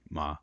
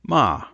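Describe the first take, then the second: First: The pitch stays low throughout. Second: The pitch starts high and falls. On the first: The word means horse. "it very often is simply a low tone" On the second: The word means scold. "it's a high falling tone"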